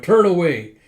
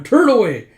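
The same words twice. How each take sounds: First: Loud, slightly high, flustered order; embarrassed shout. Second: High, very loud, urgent order; flustered shout. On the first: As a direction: order onlookers to look away, loudly. It's, uh, Yona going. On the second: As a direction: shout it in a fluster to protect modesty. Gija's voice, then corrected. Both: Acted.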